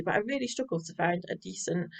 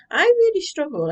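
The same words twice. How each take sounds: First: Said in the usual way. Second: Really said high and loud, stretched; stress on really. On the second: Real, not acted. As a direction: punch really up high with exasperation. Frustrated emphasis on struggling.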